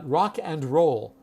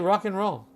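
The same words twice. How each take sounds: First: The word 'and' is said in full. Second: The word 'and' is reduced to 'n'. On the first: The speaker calls it wrong. "we do not call it rock and roll" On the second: The speaker calls it right. "We say rock and roll"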